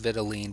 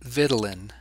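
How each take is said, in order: First: The ending does not sound like Ritalin. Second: The ending sounds like Ritalin. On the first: "I learned it as vitelline" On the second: "often pronounced vitelin, like Ritalin"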